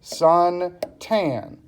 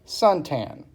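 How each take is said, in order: First: "Suntan" slowly split as sun, tan; syllable by syllable. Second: Said in the usual way. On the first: Shown as a demonstration. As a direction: break "Suntan" into two separate beats. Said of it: "tells you how many syllables". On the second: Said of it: "It's all one word".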